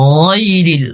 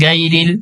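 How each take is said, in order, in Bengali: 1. প্রথম ব্যঞ্জনটি ভারী, গলা থেকে উচ্চারিত 'gh'। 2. প্রথম ব্যঞ্জনটি হালকা, সাধারণ 'g'। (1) "গইনের উচ্চারণ একটু মোটা" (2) "গাইরিল হবে না"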